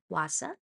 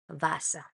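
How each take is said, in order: First: The word begins with an English w sound. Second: The word begins with a v sound. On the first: The speaker calls it wrong. "not Wasser" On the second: The speaker calls it right. "but it's Wasser"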